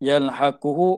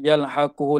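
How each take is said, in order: The two takes are said the same way.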